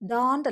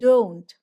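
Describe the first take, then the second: First: The o vowel is flat, without lip rounding. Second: The o vowel is said with rounded lips. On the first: The speaker calls it wrong. "ഡോണ്ട് ഡോണ്ട് അല്ല" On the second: The speaker calls it right. "ചുരുക്കി പിടിച്ചിട്ടുണ്ടെങ്കിൽ നമുക്ക് കിട്ടും"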